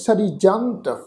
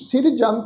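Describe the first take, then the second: First: The i vowel comes after the r. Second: The i vowel comes before the r. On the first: The speaker calls it right. "ਇੱਥੇ ਉਚਾਰਨ ਕਰਾਂਗੇ" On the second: The speaker calls it wrong. "ਨਹੀਂ ਉਚਾਰਨ ਕਰਨਾ"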